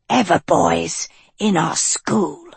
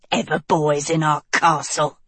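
First: Witch voice. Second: Low sneering witch; low scornful witch line. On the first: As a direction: grumble it as a witch. Second witch voice. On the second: Witch voice, resentful. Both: A narrator's reading.

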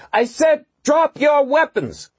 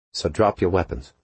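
First: Very high, full-voice slow yell. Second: Cool and calm. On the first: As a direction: yell at the top of her voice. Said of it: "she yelled at the top of her voice". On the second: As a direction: say it coolly. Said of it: "she said coolly". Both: A narrator's reading.

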